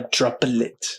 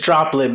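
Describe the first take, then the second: First: An extra syllable is added between P and L. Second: It is said with two syllables. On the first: "you're emphasizing a syllable that's not there between the P, P and the L" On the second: "technically it's droplet"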